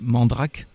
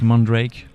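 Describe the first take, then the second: First: It is said in the French way. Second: It is said the English way, French-accented.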